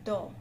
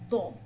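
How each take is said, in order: First: The consonant sounds light, like English door. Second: The consonant sounds heavy and thick. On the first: The speaker calls it wrong. "your tongue cannot be on the front. Dho, like open the Dho. That is wrong" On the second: The speaker calls it right. "It has to be on the right side. It has a heavier weightage"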